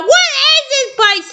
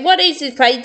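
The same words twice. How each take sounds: First: High yelled question; yelling. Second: Said in the usual way. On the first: Acted. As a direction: shout it over the blaring alarm. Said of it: "Just for yelling". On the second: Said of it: "Ryder saying".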